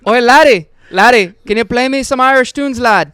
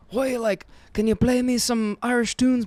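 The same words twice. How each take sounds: First: Loud, high stage-Irish brogue; a bellowed, overdone Irish brogue; hammed-up Irish accent. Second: A half-hearted Irish lilt, rushed; quick stab at an Irish accent; a rushed, barely there Irish voice; weak Irish accent. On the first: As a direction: ham up the Irish lad voice, loud. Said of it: "Okay, that was better". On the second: Retold or imitated. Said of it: "Is that an Irish accent?".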